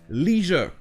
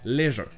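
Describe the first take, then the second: First: It is said with an American pronunciation. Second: It is said with a British pronunciation. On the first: "la prononciation américaine du mot leisure" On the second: "en anglais britannique, ça se prononce leisure"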